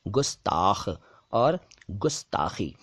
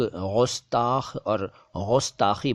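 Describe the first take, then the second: First: गुस्ताख और गुस्ताखी slowly, clean g; correct hard G. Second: गुस्ताख और गुस्ताखी slowly, each with throaty gh; wrong nukta sound. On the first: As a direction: model गुस्ताख और गुस्ताखी syllable by syllable, kh fricative. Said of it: "ग के नीचे नुक्ता नहीं है". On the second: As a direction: mispronounce गुस्ताख और गुस्ताखी as ghustakh, ghustakhi. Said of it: "ग के नीचे नुक्ता लगा देते हैं". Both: Shown as a demonstration.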